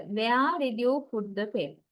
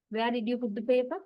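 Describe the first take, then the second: First: "paper" falling at the end; falling question intonation. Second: "paper" rising at the end, said quicker; rising question intonation. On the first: Teacher showing a usual W H question, "paper" falling. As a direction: let the pitch settle downward through "paper". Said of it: "long falling intonation pattern". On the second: Teacher showing an unlikely W H question tune, "paper" rising. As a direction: turn the pitch up on "paper". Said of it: "Rising intonation is bit unlikely". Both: Shown as a demonstration.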